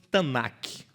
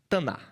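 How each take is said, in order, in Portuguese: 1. A palavra termina com um som de k. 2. A palavra termina sem um som de k. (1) "Como se fosse Tanakh, mas eles não pronunciam esse K no final" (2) "você também não vai pronunciar"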